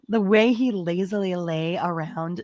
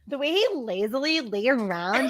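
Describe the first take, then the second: First: It is read in a non-Valley Girl voice. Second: It is read in a Valley Girl voice.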